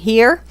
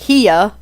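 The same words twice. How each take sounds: First: It is said in a standard accent. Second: It is said in a Southern accent.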